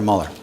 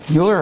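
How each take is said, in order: First: "Mueller?" as the other option; alternative Mueller pronunciation. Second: "Mueller" as one of two options; Mueller pronunciation check. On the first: Speaker asks doctor which surname is right, alternative pronunciation. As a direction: offer "Mueller?" as the second possible pronunciation. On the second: Speaker checks doctor's surname with him, questioning pronunciation. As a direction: offer "Mueller" as the first possible pronunciation. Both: Shown as a demonstration. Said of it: "Mueller, excuse me".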